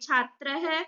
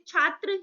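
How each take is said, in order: First: The word ends with a breathy 'h' sound. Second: The word ends on a plain vowel. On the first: "विसर्ग का उच्चारण है की भांति किया जाता है" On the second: "हिंदी में बोलेंगे"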